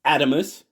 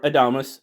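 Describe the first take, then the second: First: Adamus stressed on the first syllable. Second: Adamus as uh-DAH-mus; second-syllable stress. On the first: Knife reviewer naming the mini model, Adamus stressed up front. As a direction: say Adamus as AD-uh-mus. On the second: Knife reviewer giving the common name, Adamus stressed on DAH. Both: Shown as a demonstration. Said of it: "as most of us say".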